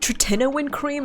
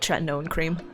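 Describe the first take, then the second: First: The word is said with its standard dictionary pronunciation. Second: The word is said with a nonstandard personal pronunciation. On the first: "Apparently the correct quote-unquote way to pronounce it is" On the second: "I'm gonna call it"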